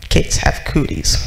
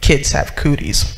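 First: Lower, breathy grumble; grumpy old man. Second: Put-on lower, grumbling old man; sulky husband brushing off the kids; grumpy old man. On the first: Retold or imitated. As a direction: mutter it like a grouch. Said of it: "Mister Smith would be like". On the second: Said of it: "he was known to be a grumpy man".

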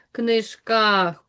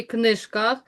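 First: Книжках with a drawn-out final КАХ; stress on second syllable. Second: Said in the usual way. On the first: Shown as a demonstration. Teacher showing pupils the stressed syllable, drawn out. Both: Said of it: "другий склад наголошений".

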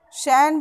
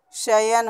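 First: शैन as one syllable, "shain"; wrong pronunciation. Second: शयन in two syllables, "sha-yan"; correct pronunciation. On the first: Teacher shows the impure word, one-syllable शैन. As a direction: merge शैन into one glide. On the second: Teacher corrects the impure word, two-syllable शयन. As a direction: sound the y in शयन, unhurried. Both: Shown as a demonstration. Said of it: "भी अशुद्ध है".

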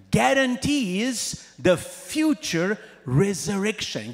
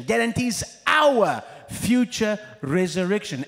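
First: "guarantees" drawn out and stressed slowly; slow emphasis. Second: "our" hit loud in a shouted climax; shouted emphasis. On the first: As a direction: lay down "guarantees" slowly, word by word. Builds the repeated point. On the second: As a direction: shout "our" out to the whole church. Repeats the point louder. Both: Acted.

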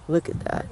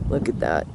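First: Whispering. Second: Said in the usual way. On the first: Real, not acted. Same words, now whispered.

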